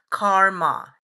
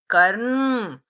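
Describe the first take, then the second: First: The word ends with a vowel after the m. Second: The word ends on the m sound. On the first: This is the common Western form. The speaker calls it wrong. "in the Western world as it is known as karma. It is not pronounced as karma" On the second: This is the Sanskrit form. The speaker calls it right. "it is a Sanskrit word karm"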